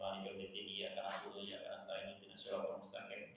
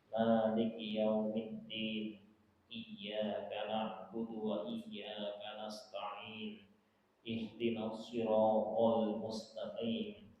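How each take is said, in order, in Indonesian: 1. Dibaca cepat dengan kata-kata tersambung. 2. Dibaca pelan dengan pengucapan yang jelas. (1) "kalau bacanya lebih cepat dari ini sama dengan tidak baca Quran ini" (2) "Itu yang paling sederhana bacanya"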